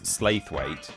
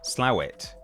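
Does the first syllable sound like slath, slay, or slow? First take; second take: slay; slow. First: The first syllable sounds like 'slay'. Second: The first syllable sounds like 'slow'. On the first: The speaker calls it wrong. "one level of pronouncing it completely incorrectly" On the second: The speaker calls it right. "if you want to get really really serious about this, it's Slowet"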